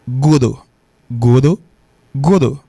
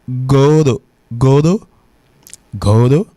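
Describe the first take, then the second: No difference in how they are said.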